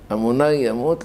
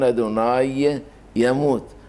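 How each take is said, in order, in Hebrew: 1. המילים מחוברות, והצליל י' נבלע. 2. שתי המילים נשמעות בנפרד, עם י' ברורה.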